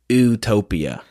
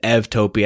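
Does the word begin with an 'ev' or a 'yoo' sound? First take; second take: yoo; ev. First: The word begins with a 'yoo' sound. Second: The word begins with an 'ev' sound. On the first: The speaker calls it wrong. "in Western's pronunciation, it would be like utopia. That's not good enough" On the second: The speaker calls it right. "in Greek, EU is pronounced ev. So I pronounce it evtopia"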